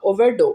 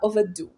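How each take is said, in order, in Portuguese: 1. A palavra é dita sem sotaque britânico. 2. A palavra é dita com sotaque britânico.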